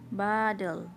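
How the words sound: It is said with an American accent. "bahasa Inggris Amerika, jadi saya sebutnya bottle"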